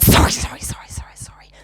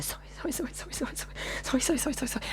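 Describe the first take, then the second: First: Harsh mocking echo, bursting loud then dropping; vicious mockery. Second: Hushed, rapid mimicked string of sorries; meek apologising. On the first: Speaker mocking the woman's apologies back at her, vicious mimicry. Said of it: "Vicious, vicious I was". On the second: Speaker imitating woman apologising after being rebuffed, meek hushed babble. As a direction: imitate her apologising, tiny and soft. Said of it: "And then she went into".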